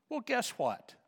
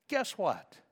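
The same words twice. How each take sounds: First: Teasing question. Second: Said in the usual way. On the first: Real, not acted.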